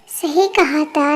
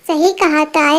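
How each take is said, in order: First: सही कहा था said slower and softer, drawn out dryly; slow dry repeat. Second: Said in the usual way. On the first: Acted. Repeating the catchphrase to her friend, slow and dry. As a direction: let सही कहा था drag, a touch sarcastic.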